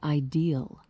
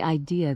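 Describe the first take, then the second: First: It is said West Virginia style, ending in L. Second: It is said without a final L sound.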